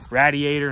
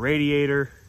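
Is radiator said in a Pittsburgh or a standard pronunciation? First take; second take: Pittsburgh; standard. First: It is said with a local Pittsburgh pronunciation. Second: It is said with a standard pronunciation. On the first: "I say radiator" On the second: "instead of radiator"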